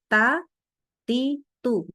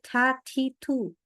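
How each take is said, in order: First: The t is crisp with no puff of breath. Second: The t is followed by an exaggerated breath. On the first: The speaker calls it right. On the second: The speaker calls it wrong. "Nggak boleh ... Itu berlebihan dari sifat udaranya"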